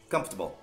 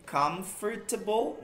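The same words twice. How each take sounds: First: The word is said quickly, syllables run together. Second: The word is said slowly, syllable by syllable. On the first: "Só que tenta falar campo de futebol rápido" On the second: "Que seria ela pronunciada bem devagarzinho"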